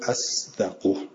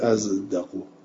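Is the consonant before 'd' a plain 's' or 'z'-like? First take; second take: plain s; z-like. First: The consonant is a plain emphatic 's' sound. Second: The consonant is an 's' sound tinged with 'z'. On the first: This is how the other readers recite it. "اما بقیه میگن از دقو" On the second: This is how the Kufan readers recite it. "ولی قرای کوفه از دقو"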